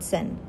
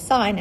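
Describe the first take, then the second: First: The vowel is short, like 'sin'. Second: The vowel is long, like 'sign'. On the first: The speaker calls it wrong. "and not sin" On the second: The speaker calls it right. "which is why I say sine"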